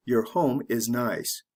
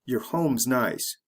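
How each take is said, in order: First: Your home is nice said full and slow; careful slow reading. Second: Your home's nice with your reduced to yer; quick reduced your; said the fast natural way. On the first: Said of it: "The slow way". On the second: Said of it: "You say it the fast way". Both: Shown as a demonstration.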